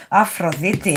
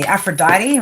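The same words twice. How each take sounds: First: Aphrodite said the Greek way, ah-fro-DHEE-tee; Greek pronunciation. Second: Aphrodite said the English way, af-ro-DYE-tee; English pronunciation. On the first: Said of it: "the proper pronunciation of these words". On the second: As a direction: Aphrodite in an Aussie English accent. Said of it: "trying to say it, like, in English". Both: Shown as a demonstration.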